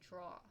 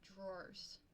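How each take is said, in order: First: The word is one syllable, like draw. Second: The word has two syllables, draw-ers. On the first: This is the speaker's own Southern way of saying it. "but I say draw" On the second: This is the standard way to say it. "you're supposed to say I think drawers"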